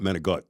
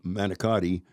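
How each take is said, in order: First: It is clipped short with no final vowel. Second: All four syllables are said, ending in a vowel.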